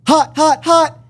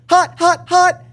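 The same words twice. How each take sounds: First: It is said at a lower pitch. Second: It is said at a higher pitch.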